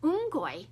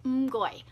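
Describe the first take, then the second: First: "Umgoi" repeated a little higher, falling at the end; Cantonese umgoi. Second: "Umgoi" with a falling tone; Cantonese umgoi. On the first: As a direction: echo "Umgoi" brighter and higher. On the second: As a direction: say "Umgoi" as a short Cantonese thank you, falling. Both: Shown as a demonstration. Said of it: "means thank you".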